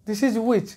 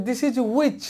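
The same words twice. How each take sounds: No difference in how they are said.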